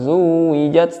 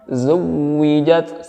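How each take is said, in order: First: The w sound is swung lightly, not held. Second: The w sound is pressed and held firmly. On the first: The speaker calls it wrong. "bukan diayunkan, bukan zuwijat" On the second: The speaker calls it right. "dan wawunya ditekan"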